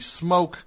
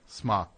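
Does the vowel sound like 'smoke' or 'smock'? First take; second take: smoke; smock. First: The vowel sounds like the one in 'smoke'. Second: The vowel sounds like the one in 'smock'. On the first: The speaker calls it wrong. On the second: The speaker calls it right.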